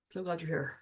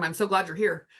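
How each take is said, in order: First: Soft repeat. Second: Said in the usual way. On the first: Pretend. Echoes the welcome, much softer.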